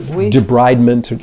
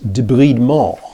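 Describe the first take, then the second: First: The word is said with an English pronunciation. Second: The word is said with a French pronunciation. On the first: "Or debridement" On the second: "in French, it's debridement"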